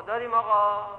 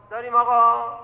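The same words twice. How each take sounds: First: Said in the usual way. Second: "داریم آقا" said louder and higher, pressing the point; louder insistent. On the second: Shown as a demonstration.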